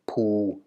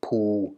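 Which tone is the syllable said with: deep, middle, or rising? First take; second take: deep; deep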